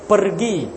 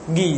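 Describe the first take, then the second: First: The word is said in full with r. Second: The word is shortened to one syllable. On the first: The speaker calls it right. "ro dah bunyi, ar dah bunyi" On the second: The speaker calls it wrong. "dia kata gi je"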